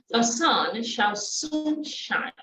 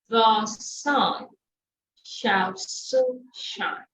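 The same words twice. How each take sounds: First: The phrase is said quickly, at full speed. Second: The phrase is said at a moderate speed. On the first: "And then faster" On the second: "Then you take it faster"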